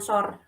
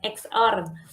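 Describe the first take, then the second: First: The first letter is said as 'es'. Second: The first letter is said as 'eks'. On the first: The speaker calls it wrong. "bukan S O R" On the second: The speaker calls it right. "ini bacanya X O R ya"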